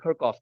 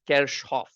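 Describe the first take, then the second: First: The name is said with an English pronunciation. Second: The name is said with a German pronunciation. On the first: This is how colleagues said it. "somebody kept saying Kirchhoff" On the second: This is the modern German pronunciation. "The actual German pronunciation is Kirchhoff"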